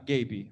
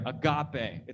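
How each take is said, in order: First: It is pronounced like the English word. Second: It is pronounced the Greek way. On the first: The speaker calls it wrong. "It's not agape" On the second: The speaker calls it right. "get your Greek pants on and pronounce things weird"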